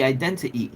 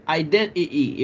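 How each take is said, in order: First: Identity with both T sounds clearly pronounced; identity fully articulated; T sounded. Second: Identity said with the second T dropped, "identi-y"; identity with a glottal gap for the last T. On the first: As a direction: say every T in identity. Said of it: "it'd be". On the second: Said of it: "So it wouldn't be". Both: Shown as a demonstration.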